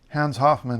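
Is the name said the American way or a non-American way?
American. The name is said with an American pronunciation. This is how the name is said in the US.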